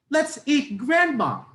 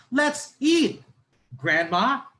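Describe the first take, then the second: First: High, loud "Let's eat Grandma" run together, falling at the end; no pause before "Grandma", one falling phrase; Grandma as the food. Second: High, loud "Let's eat", a pause, then "Grandma" rising; calling Grandma to eat. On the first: Teacher showing second intonation, Grandma eaten, said without a pause. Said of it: "Yung pangalawa, sinasabi natin na kainin na natin si Grandma".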